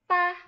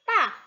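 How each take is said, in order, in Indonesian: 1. Diucapkan dengan nada pertama Mandarin. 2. Diucapkan dengan nada keempat Mandarin. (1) "Nada pertama" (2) "ada keempat"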